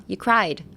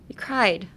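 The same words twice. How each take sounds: First: Said in the usual way. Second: Laughing whisper. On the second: Shown as a demonstration. Teacher testing a translation, whispering through a giggle. Repeats it, amused.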